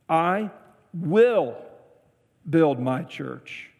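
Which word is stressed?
will. The stress is on "will".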